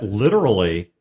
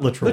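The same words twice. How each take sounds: First: The word is said with three syllables. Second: The word is said with two syllables. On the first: The speaker calls it right. "literally is three syllables" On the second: The speaker calls it wrong. "It's not literally"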